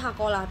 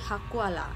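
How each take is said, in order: First: The vowel after k is a plain o. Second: The vowel after k is a gliding ua. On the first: This is how the word is written. "tulisnya hakola" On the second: This is how the word is spoken in the local accent. "ketika di pronounce atau diucapkan maka logatnya tuh akan berbeda menjadi hakuala"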